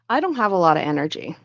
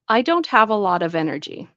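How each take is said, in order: First: The words 'lot of' blend into 'lotta'. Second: The word 'of' is fully pronounced with a V. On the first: "then we're going to say a lotta" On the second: "try it with the this first, so you can hear the V"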